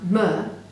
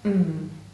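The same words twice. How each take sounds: First: An extra vowel sound follows the consonant. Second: The consonant is said alone, with no vowel. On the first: The blended sounds do not form a recognizable word. The speaker calls it wrong. "which will not sound like a word you might recognize" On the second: The blended sounds form a recognizable word. The speaker calls it right. "if you blend the sounds precisely"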